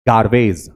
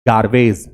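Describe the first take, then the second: Both takes have the same delivery.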